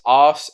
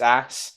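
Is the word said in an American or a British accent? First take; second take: British; American. First: The word is said in a British accent. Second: The word is said in an American accent. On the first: The speaker calls it wrong. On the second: The speaker calls it right.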